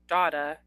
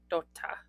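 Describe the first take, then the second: First: The double consonant is short, said English-style. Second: The double consonant is held with a slight stop. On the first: The speaker calls it wrong. "it's not data, data, like we would say in English" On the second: The speaker calls it right. "It's like dota"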